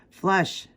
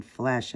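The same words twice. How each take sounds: First: "Flush" pitched high, with a short u as in "rush"; self-correcting "Flush", uh not eh; corrected word. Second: "flesh" with an eh vowel in place of uh; mispronounced word. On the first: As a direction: say "Flush" with an uh vowel, higher, correcting yourself. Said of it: "I mean flush". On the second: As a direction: say "flesh", rhyming with "mesh", at usual pitch. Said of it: "keep saying the name wrong". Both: Real, not acted.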